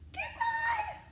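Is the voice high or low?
high. It is said in a high voice.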